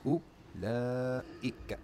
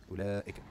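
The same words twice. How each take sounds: First: Ulaika stretched out very slowly, syllable by syllable; Sesame Street drawl. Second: Said in the usual way. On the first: Shown as a demonstration. Teacher sounding out the word for students, very slow. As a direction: draw out Ulaika like a kids' show. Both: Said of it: "talking like Sesame Street".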